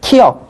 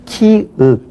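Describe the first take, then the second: First: The second syllable sounds like 'yeok'. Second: The second syllable sounds like 'euk'. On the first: The speaker calls it wrong. "키역 그렇게 할 필요 없죠?" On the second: The speaker calls it right. "그냥 키읍 그렇게 하시면 될 것 같습니다"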